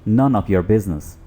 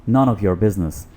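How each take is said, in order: The two takes are said the same way.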